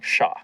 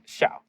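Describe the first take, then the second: First: The name is said like English 'Shaw'. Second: The name is said with its original sound. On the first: It was easier for people to get. The speaker calls it wrong. "would pronounce my first name like S H A W" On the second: It is the name's true pronunciation. The speaker calls it right. "the way that it was supposed to be pronounced"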